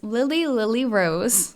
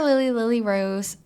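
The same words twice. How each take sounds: First: The name is said slowly and carefully. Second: The name is said quickly and run together. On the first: "who I'm going to still continue to say slowly" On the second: "I said that fast"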